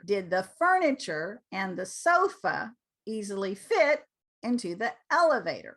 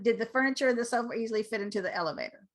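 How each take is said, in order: First: The pitch rises and falls on key words. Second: The pitch stays flat across the words. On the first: The speaker calls it right. "our voice comes up and our voice comes down" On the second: The speaker calls it wrong. "Do you hear how that's flat?"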